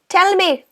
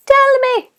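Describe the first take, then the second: First: Said in the usual way. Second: 1 high teasing repeat. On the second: Shown as a demonstration.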